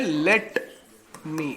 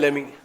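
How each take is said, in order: First: Both words are said fully with a clear t. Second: The words blend into one reduced word, lemme. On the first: "इसको हम बोलते हैं लेट मी" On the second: "short में ... बोल भी देते हैं लेमी"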